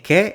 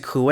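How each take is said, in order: First: The u is silent, sounding like 'ke'. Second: The u is pronounced, sounding like 'kwe'. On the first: "The silent U" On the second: "could be pronounced"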